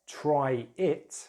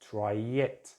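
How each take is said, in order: First: The words are said separately, without a linking sound. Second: A y sound links the two words together.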